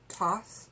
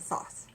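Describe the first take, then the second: First: The word begins with a plain t sound. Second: The word begins with a th sound. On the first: Some other people say it this way. "some people pronounce it" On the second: It is said just as it is spelled. "I pronounce it Thoth. T H O T H. Just like it's spelled"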